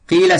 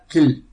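First: The vowel is held long. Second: The vowel is cut short. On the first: The speaker calls it right. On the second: The speaker calls it wrong.

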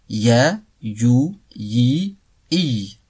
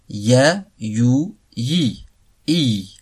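Both takes have the same delivery.

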